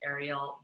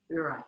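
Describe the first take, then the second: First: The name is said like Ariel. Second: The name is said like Uriel. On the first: The speaker calls it wrong. "when I was seventeen, I pronounced it Ariel" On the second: The speaker calls it right. "but if you really get into it, it's it's Uriel"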